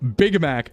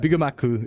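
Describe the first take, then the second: First: It is said in plain English pronunciation. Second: It is said with Japanese-style vowels added.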